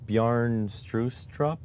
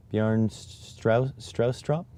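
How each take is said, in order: First: Strustrup with an "oo" in the first syllable; tentative name pronunciation. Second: Straustrup with an "ow" in the first syllable; questioning name pronunciation. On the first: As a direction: say "Strustrup" slowly, first vowel as in "true". Trying out a name's pronunciation. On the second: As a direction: try "Straustrup" with first vowel as in "house", questioning. Retrying the name's pronunciation. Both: Real, not acted.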